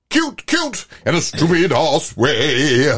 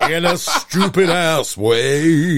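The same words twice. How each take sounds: First: High squeaky start, then slow drawn-out words; camp, sneering delivery of the lyric; mock quoting. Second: Slow, drawn-out put-on voice; mock quoting. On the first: Host mocks the song lyric in a silly high voice. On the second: Friend repeats the mocked lyric, slow and camp. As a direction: drag out each word with a sneer.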